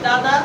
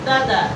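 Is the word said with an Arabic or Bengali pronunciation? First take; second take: Bengali; Arabic. First: The vowels are said the plain Bengali way. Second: The vowels are tilted the Arabic way. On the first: "বাংলায় যদি বলি দাদা" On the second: "আরবিতে আসলে হয়ে যাবে দাদা"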